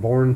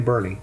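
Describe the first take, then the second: First: The name sounds like the word born. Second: The name sounds like burn with an ee ending. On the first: This is how the spelling looks it should sound. "Looks like Bourne to me" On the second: This is how the local people say it. "but they say Bernie"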